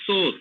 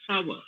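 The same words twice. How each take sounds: First: "sour" as one syllable, like "sore"; "sour" rhymed with "four"; mispronounced "sour". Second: "sour" as "sow-er", with an "ow" glide; "sour" opened out into "ow-er"; correct "sour". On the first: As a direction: say "sour" wrongly with a long "o" vowel. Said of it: "many of them tend to pronounce as". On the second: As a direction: say "sour" to rhyme with "power". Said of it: "Actually, it's". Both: Shown as a demonstration.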